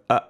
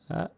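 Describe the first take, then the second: First: A fuller, pressed sound with strong closure. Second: A soft, gentle sound with light closure. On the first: "this is fuller, the compression, the chords come together more aggressively" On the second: "It's a gentle type of sound"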